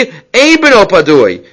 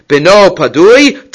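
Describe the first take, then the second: First: "ein b'no padui" slow and settled, falling on padui; firm statement. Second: "B'no padui" drawn out slowly, rising at the end on padui; questioning tune. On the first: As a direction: lay down "ein b'no padui" slowly, dropping at the end. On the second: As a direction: stretch "B'no padui" out and lift padui like a doubting question. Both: Acted. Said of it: "And you're telling me".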